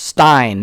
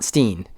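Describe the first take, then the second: First: The vowel sounds like the one in 'line'. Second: The vowel sounds like the one in 'seen'. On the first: The speaker calls it right. "it's pronounced Stein" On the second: The speaker calls it wrong. "not Steen"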